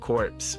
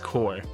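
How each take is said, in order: First: The word ends with audible p and s sounds. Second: The word ends on r, without p and s. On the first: The speaker calls it wrong. "correcting my pronunciation of corpse" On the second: The speaker calls it right. "when it's core"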